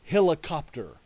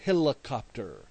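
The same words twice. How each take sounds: First: Put-on clear, deliberate helicopter for a toddler; father modeling helicopter for his daughter, deliberately; teaching a word. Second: A hint of a toddler echoing helicopter; daughter repeating. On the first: Shown as a demonstration. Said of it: "and I said". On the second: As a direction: echo helicopter like a small child. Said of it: "she said back".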